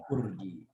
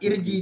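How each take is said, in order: First: The word begins with a u vowel. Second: The word begins with an i vowel. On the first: The speaker calls it right. "tapi ur" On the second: The speaker calls it wrong. "Jadi bukan irji jadinya bukan"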